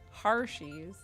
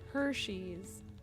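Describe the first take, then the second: First: The first syllable sounds like 'har'. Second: The first syllable sounds like 'her'. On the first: The speaker calls it wrong. "I said Hershey's wrong" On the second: The speaker calls it right. "I've had to work on saying Hershey's"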